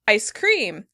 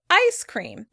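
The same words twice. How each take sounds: First: The stress falls on the word cream. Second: The stress falls on the word ice. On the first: This is the British pronunciation. "In British English, they stress the word cream" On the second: This is the American pronunciation. "In American English, we stress the first syllable"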